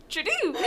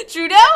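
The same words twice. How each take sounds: First: "Trudeau" ending in "doo"; mispronounced name. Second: Said in the usual way. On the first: Real, not acted. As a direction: say "Trudeau" as "tru-DOO", amused. Laughing misreading of the name.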